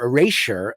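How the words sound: It is said with an American pronunciation. "as Americans say"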